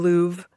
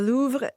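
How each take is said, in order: First: It is pronounced with an American pronunciation. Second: It is pronounced with a French pronunciation. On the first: "as Americans would say" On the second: "I'm saying it the French way"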